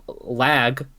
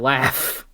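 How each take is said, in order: First: The word ends with a g sound. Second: The word ends with an f sound. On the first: The speaker calls it wrong. "you don't say lag" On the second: The speaker calls it right. "you say laugh"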